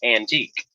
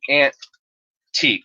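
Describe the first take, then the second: First: It is said as the ordinary word antique. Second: It is said as two words, 'aunt' and 'teak'. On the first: It names an old valuable object. "antique is A N T I Q U E" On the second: It mocks how someone else says it. "he says it like"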